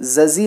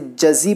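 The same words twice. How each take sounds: First: The two consonants sound alike. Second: The first consonant is j, the second z. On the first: The speaker calls it wrong. "जज़ी ना पढ़ें" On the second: The speaker calls it right. "इसे जज़ी पढ़ेंगे। पहले जा फिर जी।"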